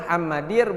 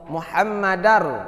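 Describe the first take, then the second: First: The vowel after the d is i. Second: The vowel after the d is a. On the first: The speaker calls it wrong. "bukan Muhammadir" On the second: The speaker calls it right.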